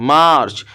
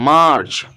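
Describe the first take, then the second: Both takes have the same delivery.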